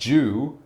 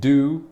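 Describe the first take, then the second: First: It begins with a j sound. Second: It begins with a plain d sound. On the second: "like the word do, as in do something"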